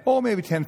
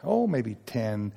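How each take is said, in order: First: Higher and brighter, "Oh, maybe ten," tossed off quickly; the salesman's upbeat pitch; eager salesman estimate. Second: Drawn out and low, "Oh, maybe ten." said slowly as a hedge; a drawn-out, low-key guess; slow hesitant estimate. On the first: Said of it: "they'll expand it". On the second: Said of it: "Once you say that, they'll expand it". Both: Retold or imitated.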